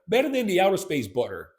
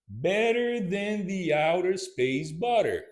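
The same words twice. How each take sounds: First: It is said fast. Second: It is said slowly.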